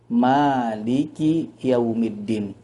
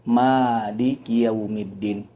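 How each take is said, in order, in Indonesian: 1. Vokal pertama Maliki itu panjang. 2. Vokal pertama Maliki itu panjang.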